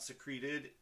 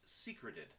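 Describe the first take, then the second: First: The word sounds like 'secrete' with -ed added. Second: The word sounds like 'secret' with -ed added. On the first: Something was oozed out. The speaker calls it wrong. "it's not a an oozing pustule, so it, therefore it is not secreting. It is not secreted" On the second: Something was hidden. The speaker calls it right. "It is hidden, meaning secret. So the word is pronounced secreted"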